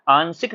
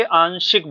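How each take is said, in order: First: आंशिक said with s, aan-sik; wrong s sound. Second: आंशिक said with sh, aan-shik; correct sh sound. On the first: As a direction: swap sh for s in आंशिक. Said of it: "आंशिक ना बोल करके". (आंशिक में श की जगह स) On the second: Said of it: "शा का उच्चारण दीजिए उसमें". (आंशिक में साफ़ श) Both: Shown as a demonstration.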